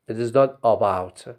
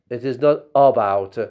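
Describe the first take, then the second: The two takes are said the same way.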